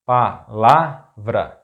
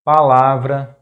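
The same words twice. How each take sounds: First: Palavra slowly split, pa - la - vra; syllable by syllable. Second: Palavra as one word, loud stress on LA; stress on second-to-last syllable. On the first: Teacher breaking down an example word, palavra slow in syllables. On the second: Teacher giving an example word, palavra stressed on LA. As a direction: say palavra joined up, punching LA. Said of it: "stressed syllable is the second to last". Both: Shown as a demonstration.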